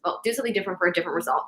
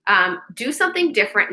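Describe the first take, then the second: First: Correcting a misquote, rattled off fast. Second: Said in the usual way. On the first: Shown as a demonstration. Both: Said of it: "No, no, no, that's not what it is".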